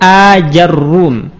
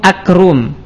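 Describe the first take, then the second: First: Long first a, then ja, then a doubled r. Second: Short first a, then a k sound replaces j. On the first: "dengan hamzah mamdudah, kemudian jimnya kita fathah, ra-nya kita dhammah dan ditasydid" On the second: "jimnya kita ganti dengan huruf kaf"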